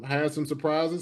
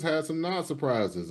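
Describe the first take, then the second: First: Said in the usual way. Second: NOT picked out against the first phrase; stress on NOT. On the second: Real, not acted. Host listing roster cuts, stress on NOT. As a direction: lean on the word NOT. Sets surprises against non-surprises.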